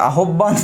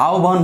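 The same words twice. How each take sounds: First: আহ্বান said as "a-hob-ban"; আহ্বান with h and "bb" sounded; spelling pronunciation. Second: আহ্বান said as "ao-ban"; আহ্বান with no h before a single b; spoken form. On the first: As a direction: say আহ্বান by its letters, doubling the b. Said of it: "আহ্বান কিভাবে". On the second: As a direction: glide a to o, then "ban" in আহ্বান. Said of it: "আহ্বান হলো". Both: Shown as a demonstration.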